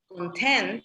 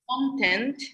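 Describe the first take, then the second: First: The stress is on the second syllable. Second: The stress is on the first syllable. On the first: Feeling happy or satisfied. "it's different" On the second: What something has inside. "the stress is on the first syllable"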